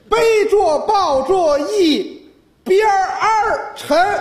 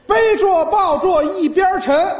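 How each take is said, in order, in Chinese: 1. 'yibian' 的发音加了 'er' 音。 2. 'yibian' 的发音没有加 'er' 音。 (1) "儿化音" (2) "这还是七个"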